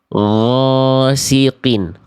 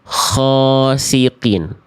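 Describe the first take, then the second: First: The first consonant is voiced with no rushing air. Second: The first consonant is voiceless with air rushing out. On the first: The speaker calls it right. "Ghasiqin itu yang tepat" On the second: The speaker calls it wrong. "yang keliru keluar udara"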